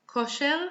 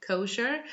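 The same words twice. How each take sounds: First: Kosher with a pure O and clear final "-er", Israeli way; Hebrew pronunciation. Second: Said in the usual way. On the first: Shown as a demonstration. Teacher showing learners the Hebrew word, Kosher said in an Israeli accent. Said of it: "the Israeli accent". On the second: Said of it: "I'm just saying kosher".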